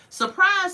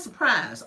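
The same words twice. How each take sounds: First: High, loud announcing shout; excited. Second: Said in the usual way. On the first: Real, not acted. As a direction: call it out like a reveal. Host announces couple's return.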